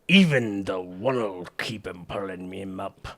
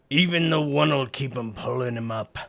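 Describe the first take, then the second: First: It is spoken in a gruff old sea captain accent. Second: It is spoken with a drifting, partly Australian accent. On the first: The speaker calls it right. "back to sea captain" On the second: The speaker calls it wrong. "I'm switching between like Australian and and sea captain"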